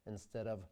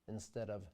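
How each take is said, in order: The two takes are said the same way.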